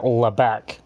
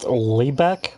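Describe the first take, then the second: First: The vowel in the name is cut short. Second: The vowel in the name is held long. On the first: The speaker calls it wrong. "people pronounce pronounce it Lebeck" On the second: The speaker calls it right. "my name's pronounced Lebeck"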